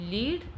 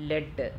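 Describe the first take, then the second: First: ലീഡ് with a long ee; ലീഡ് as "leed", vowel held; present-tense pronunciation. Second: ലെഡ് with a short e; ലെഡ് as "led", short vowel; past-tense pronunciation. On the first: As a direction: say ലീഡ് to rhyme with "need". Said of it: "അത് ലീഡ് എന്നാണോ ലെഡ് എന്നാണോ". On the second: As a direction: say ലെഡ് to rhyme with "bed". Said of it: "ലെഡ് എന്നാണോ പ്ര-, pronounce ചെയ്യേണ്ടത്". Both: Shown as a demonstration.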